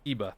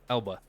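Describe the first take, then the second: First: The L sound in the name is silent. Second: The L sound in the name is heard.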